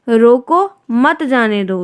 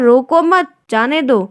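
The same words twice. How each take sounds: First: There is a pause right after the first word. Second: There is a pause right after the second word. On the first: Stop him and do not let him go. "रोक लो उसको, जाने मत दो" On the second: Do not stop him; let him go. "दूसरा क्या है"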